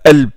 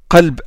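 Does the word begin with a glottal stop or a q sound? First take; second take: glottal stop; q sound. First: The word begins with a glottal stop. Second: The word begins with a deep q sound.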